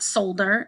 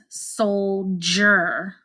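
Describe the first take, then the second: First: The middle has a plain d sound. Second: The middle has a j sound. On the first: The speaker calls it wrong. "you might want to say older, but it's not solder" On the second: The speaker calls it right. "we hear that j sound right here"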